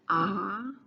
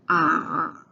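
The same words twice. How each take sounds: First: It is said with the second tone. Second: It is said with the third tone.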